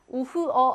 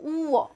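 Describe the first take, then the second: First: 우흐어 with an audible 흐; h wrongly sounded. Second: 우어 with a long 우, no h; silent h, long vowel. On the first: Teacher showing the wrong reading, audible h in 우흐어. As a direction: pronounce the h between vowels in 우흐어. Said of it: "하지 않고". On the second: Teacher showing the right reading, long u in 우어. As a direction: stretch the first vowel of 우어. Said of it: "이렇게 길게 만들어줍니다". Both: Shown as a demonstration.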